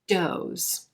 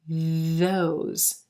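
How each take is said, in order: First: It begins with a stopped d sound. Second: It begins with a continuous th sound. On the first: The speaker calls it wrong. "The D sound is a stop consonant" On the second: The speaker calls it right. "The T H sound is continuous"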